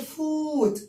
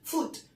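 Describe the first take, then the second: First: The vowel is drawn out long. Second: The vowel is said short and quick. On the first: The speaker calls it wrong. "ما بنقولش foot. no" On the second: The speaker calls it right. "بنقولها بسرعة"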